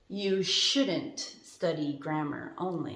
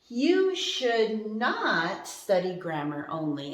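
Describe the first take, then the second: First: Should and not merge into one contracted word. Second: Should and not are said as two full words.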